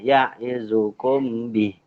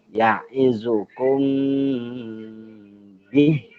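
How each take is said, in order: First: The m is cut short without a nasal hum. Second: The m is held with a long nasal hum. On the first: The speaker calls it wrong. "Tidak tepat membacanya" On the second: The speaker calls it right. "dua harokat dengung"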